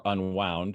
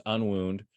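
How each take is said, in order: First: "Unwound" said "un-WOWND"; wound as in coiled. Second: "Unwound" said "un-WOOND"; wound as in injury. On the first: Poet offering his channel's other pronunciation, "Unwound" as in uncoiled. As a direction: say "Unwound" with an ow vowel, rhyming with "found". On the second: Poet naming his YouTube channel, "Unwound" rhyming with "crooned". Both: Shown as a demonstration. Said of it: "depending on how you wanna pronounce that".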